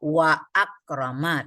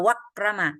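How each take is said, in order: First: A glottal stop separates wa from akrama. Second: Wa runs straight into krama without a stop. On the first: The speaker calls it right. "Walaupun kita tambah waw wa akrama tetap dibaca" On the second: The speaker calls it wrong. "Jangan dibaca wakrama karena dia wa hamzah wasal"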